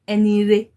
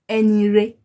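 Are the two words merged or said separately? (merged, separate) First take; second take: merged; merged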